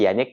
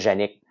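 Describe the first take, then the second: First: The name begins with a Y sound. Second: The name begins with a J sound. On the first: The speaker calls it right. "il faut prononcer Yannick" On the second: The speaker calls it wrong. "mais le monde l'appelait Yannick"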